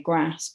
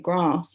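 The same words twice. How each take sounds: First: It is said in a northern English accent. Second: It is said in a Queen's English accent.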